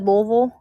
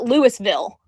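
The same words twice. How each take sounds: First: Louisville is pronounced the local Kentucky way. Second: Louisville is pronounced the common outsider way. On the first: The speaker is from Kentucky. "only us Kentucky people say it that way" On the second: The speaker is not from Kentucky. "Everybody else calls it Louisville"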